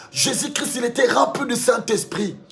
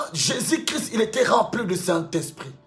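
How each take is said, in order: No difference in how they are said.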